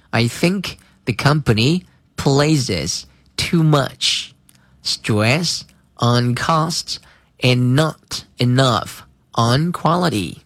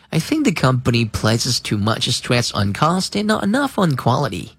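First: Slow, clear model reading. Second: Said in the usual way. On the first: Shown as a demonstration. Teacher reads slowly for students to repeat. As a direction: read it slowly for the class to follow. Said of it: "读慢一些". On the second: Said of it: "用正常语速读一遍".

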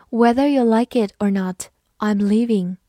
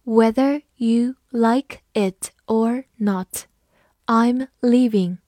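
First: Said in the usual way. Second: Slow, careful model sentence; slow reading. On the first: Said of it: "慢慢来读". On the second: Shown as a demonstration. Teacher reading slowly for the class. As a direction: read it slowly, word by word. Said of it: "好，慢慢来读".

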